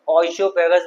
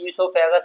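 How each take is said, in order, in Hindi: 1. शब्द की शुरुआत 'oy' आवाज़ से होती है। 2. शब्द की शुरुआत 'ee' आवाज़ से होती है। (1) "ओइसोफेगस बोले" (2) "इसे ईसोफेगस बोला जाता है"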